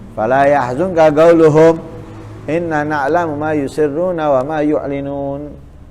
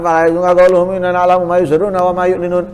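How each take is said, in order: First: It pauses after qauluhum, then continues. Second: It runs on with no pause after qauluhum. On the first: Their saying ends before the next words. The speaker calls it right. "wajibkan berhenti baru melanjutkan" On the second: The next words seem to be part of their saying. The speaker calls it wrong. "Bukan ... haram"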